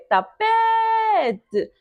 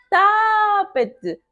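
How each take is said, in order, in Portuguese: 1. A tônica está na sílaba do meio. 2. A tônica não está na sílaba do meio. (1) "Então é tapete" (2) "Nunca vamos chamar tapete"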